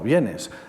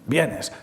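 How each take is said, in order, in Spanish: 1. Se dice como afirmación sencilla. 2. Se dice con tono enfadado. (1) "afirmación"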